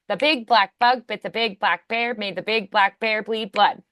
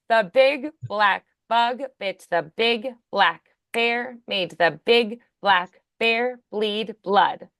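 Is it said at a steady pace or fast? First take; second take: fast; steady. First: It is said quickly. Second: It is said at a slow, steady pace.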